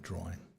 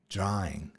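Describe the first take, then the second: First: The word is said quickly and run together. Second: The word is said slowly and carefully. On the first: The speaker calls it wrong. "not drawing" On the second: The speaker calls it right. "I have to slow down and say draw, drawing"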